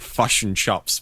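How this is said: The words sound like fush and chops. This is how it sounds to other people. "it sounds like fush and chops"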